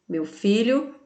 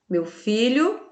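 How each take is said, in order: The two takes are said the same way.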